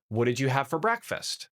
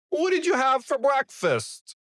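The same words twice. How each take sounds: First: It is said in the normal voice. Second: It is said in an altered, put-on voice.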